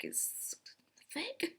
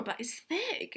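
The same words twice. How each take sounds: First: Breathy whisper on thick; whispered aside. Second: Said in the usual way. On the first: Shown as a demonstration. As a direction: lean in and whisper it as a secret. Whispers the repeated punchline.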